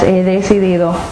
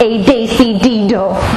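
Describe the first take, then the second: First: The consonants are pronounced soft and light. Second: The consonants are pronounced hard and forceful. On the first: The speaker calls it right. "it's softer than that" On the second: The speaker calls it wrong. "you don't pronounce your consonants really hard. It's not"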